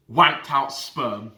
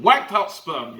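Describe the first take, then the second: First: Each word of "Wanked Out Sperm" drawn out slowly and spaced; slow announced name. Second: Said in the usual way. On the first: Shown as a demonstration. Naming the rival fan for viewers, slow deliberate reveal. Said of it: "we'll call him". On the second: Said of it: "That's what we're gonna call him".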